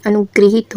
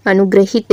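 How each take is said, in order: First: अनुग्रहित said as 'anu-gri-heet'; an 'i' after 'gr' in अनुग्रहित; corrected pronunciation. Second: अनुग्रहित said as 'anu-gra-hit'; short 'a' after 'gr' in अनुग्रहित; incorrect pronunciation. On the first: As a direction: say अनुग्रहित with 'gri' in the middle. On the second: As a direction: say अनुग्रहित with 'gra' in the middle. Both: Shown as a demonstration. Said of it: "शुद्ध रूप".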